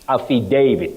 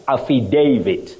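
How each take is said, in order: First: The A sounds like the letter A. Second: The same.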